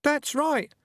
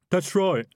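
First: Much higher, squeaky little voices; chorus of rats. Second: Louder, higher urgent agreement; eager to please. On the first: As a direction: chime in like tiny rats. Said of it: "a chorus of voices from his trousers". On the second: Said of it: "said the highwayman urgently". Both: A narrator's reading.

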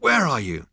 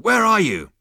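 First: High, loud alarmed shout; panicked panting. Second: Very high, very loud yell; calling out. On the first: Zaphod searching for the unseen voice, panicked. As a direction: demand it of the empty air. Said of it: "panted Zaphod". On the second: Zaphod calling after the vanished voice, full shout. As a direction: yell it into the distance. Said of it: "called out Zaphod". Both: A narrator's reading.

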